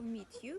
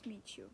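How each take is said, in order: First: The t and y sounds stay separate. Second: The t and y merge into a ch sound. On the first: "two sounds come together and change to ch" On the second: "two sounds come together and change to ch"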